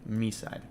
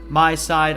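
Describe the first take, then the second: First: The first syllable rhymes with 'see'. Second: The first syllable rhymes with 'eye'. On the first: The speaker calls it right. "Me side is basically how it's pronounced" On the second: The speaker calls it wrong. "I think that's how it's pronounced"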